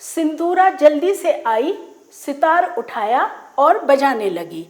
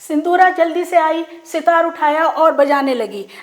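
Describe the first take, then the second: First: There is a pause after the first clause. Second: The sentence runs on without any pause.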